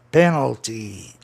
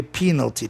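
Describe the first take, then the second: First: Penalty slow and lower, as "PEN-al-ty"; E sound. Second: Penalty as "PEE-nal-ty"; long I sound. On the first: Teacher showing the better-sounding form, penalty slowly as "PEN-al-ty". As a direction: stretch penalty with an open E first. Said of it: "ficou melhor o S ou a E". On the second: Teacher showing the harder rejected form, penalty said "PEE-nal-ty". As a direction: say penalty with "PEE" in place of "PEN". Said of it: "ia dar uma dificuldade enorme". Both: Shown as a demonstration.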